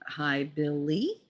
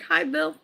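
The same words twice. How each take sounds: First: Slow, drawn-out mock-babying BILLY, softer; pointed corrected greeting. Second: High-pitched mock-cheery hello; retold greeting. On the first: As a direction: stretch out Billy with exaggerated care. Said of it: "I figured you were older". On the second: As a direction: call a high, light greeting. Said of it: "And I was like".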